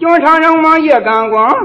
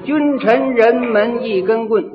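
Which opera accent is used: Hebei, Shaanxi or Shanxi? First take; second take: Shanxi; Hebei. First: It is recited in a faster, tighter Shanxi style. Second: It is recited in plain Hebei opera Mandarin.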